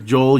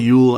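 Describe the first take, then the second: First: The name begins with a J sound. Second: The name begins with a Y sound.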